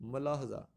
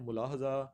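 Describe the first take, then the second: First: The first syllable has an a vowel. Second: The first syllable has a u vowel. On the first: The speaker calls it right. "दुरुस्त option जो है ... मलाहजा" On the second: The speaker calls it wrong. "कुछ इसको पढ़ते हैं मुलाहजा"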